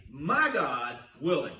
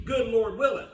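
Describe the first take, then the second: First: "My God willing" slow, lower and deliberate; the right way. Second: "Good Lord willing" said loud, as the usual hopeful phrase; the common saying, a bit louder, "Good" leaned on; "Good Lord willing" as the phrase people say out of habit; the wrong way. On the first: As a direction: lay out "My God willing" slowly and lower, each word placed. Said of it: "You should say". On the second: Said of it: "Don't say". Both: Shown as a demonstration.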